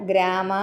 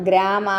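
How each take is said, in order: No difference in how they are said.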